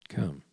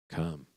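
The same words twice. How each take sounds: The two takes are said the same way.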